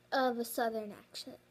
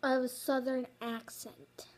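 First: "accent" fumbled into "ack-shuh"; tongue-tied slip. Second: "accent" said clearly as "ak-sent"; corrected retake. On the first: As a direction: trip over "accent", losing its ending. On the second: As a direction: redo it with a clean ending on "accent". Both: Real, not acted. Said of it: "I can't even talk today".

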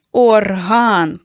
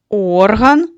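First: Орган stressed loudly on -ГАН; loud or-HAN, final syllable stressed; stress on second syllable. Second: Орган with a long, loud ОР-; slow OR-han, first syllable stressed. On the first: Teacher naming the musical instrument, орган stressed on -ган. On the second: Teacher defining the nose, орган stressed on ор-. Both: Shown as a demonstration. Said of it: "що відрізняє пари слів".

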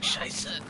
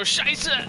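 First: Whispered, fading German curse; dying voice. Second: High, loud German curse; German soldier shout. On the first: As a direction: breathe it out like your last words. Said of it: "in, like, a dying voice". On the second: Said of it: "your German soldier go". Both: Retold or imitated.

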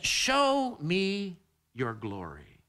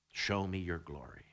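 First: Drawn out slowly, every word weighed; slow plea. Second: Hushed plea. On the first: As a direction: stretch the plea long and deliberate. Repeats Moses' plea. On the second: Quoting Moses' plea. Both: Acted.

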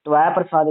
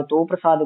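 First: "ਤਵੈ" as tu-ai; "ਤਵੈ ਪ੍ਰਸਾਦ" as tu-ai prasaad; u-ai variant. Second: "ਤੋ" as toh; "ਤੋ ਪ੍ਰਸਾਦ" as toh prasaad; o-vowel variant. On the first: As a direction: slide u into ai on "ਤਵੈ". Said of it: "ਤਵੈ ਪ੍ਰਸਾਦ ਕਰਾਉਂਦਾ". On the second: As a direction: hold a single o in "ਤੋ". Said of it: "ਤੋ ਪ੍ਰਸਾਦ ਕਰਾਉਂਦਾ". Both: Shown as a demonstration.

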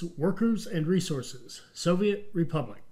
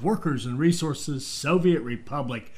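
First: Intro title read. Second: Said in the usual way. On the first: Acted.

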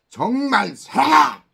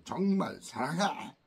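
First: Much higher and much louder, yelled 정말 사랑해; shouted I love you. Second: Sincere tone. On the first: Teacher yelling 정말 사랑해 to show tone. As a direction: scream it like a sarcastic yell. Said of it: "이거하고는 다른 거죠". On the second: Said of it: "이 말투". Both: Shown as a demonstration.

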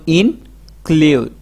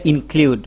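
First: "include" slowly as in, pause, klud; split in two. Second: Said in the usual way. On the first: Shown as a demonstration. Teacher helping learners memorise a big word, split in two. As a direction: break "include" after the in. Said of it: "ভাগ করে যেমন". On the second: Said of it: "একত্রিত করি তাহলে".

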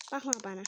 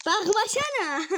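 First: Said in the usual way. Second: Higher, slow teasing whine; higher, slower teasing drawn-out plea; taunting. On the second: Real, not acted. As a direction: drag it out to needle him. Taunting friend not to look.

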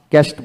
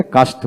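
First: ক্যাস্ট with front "ae", "kaest"; rejected pronunciation. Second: কাস্ট with open "aa", "kaast"; more common pronunciation. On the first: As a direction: say ক্যাস্ট with the vowel of "cat". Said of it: "ক্যাস্ট বলি না". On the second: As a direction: say কাস্ট with a long "ah". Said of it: "কাস্ট বেশি বলা হয়". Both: Shown as a demonstration.

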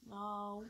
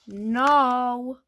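First: Very soft, barely voiced no; low-key refusal. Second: Louder, drawn-out no; exasperated refusal. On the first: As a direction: answer almost under your breath. Answering repeated are we there yet. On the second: Pretend. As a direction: play fed up with the nagging. Third answer to the nagging question.

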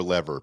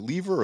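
First: "lever" pronounced LEV-er; short-e lever. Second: "lever" pronounced LEE-ver; long-e lever. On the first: Host asking co-host about pronunciation, "lever" as LEV-er. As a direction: say "lever" with a short e, rhyming with "never". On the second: Host asking co-host about pronunciation, "lever" as LEE-ver. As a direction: say "lever" with a long ee in the first syllable. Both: Shown as a demonstration. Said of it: "Is it lever or lever".

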